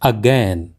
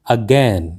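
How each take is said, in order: No difference in how they are said.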